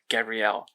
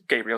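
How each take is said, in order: First: The name is said like 'Gabrielle'. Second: The name is said like 'Gabriel'. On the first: The speaker calls it wrong. "for some reason, decided it would be pronounced Gabrielle" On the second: The speaker calls it right. "I'm pretty certain it's Gabriel"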